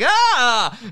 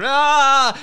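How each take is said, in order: First: The yell sounds cheerful and happy. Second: The yell sounds fierce, like at a rock concert. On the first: The speaker calls it wrong. "the kid is sounding happy. It's like ah, it's like not happy" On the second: The speaker calls it right. "like you're at a rock concert. Ah, it's like yeah, that's the one"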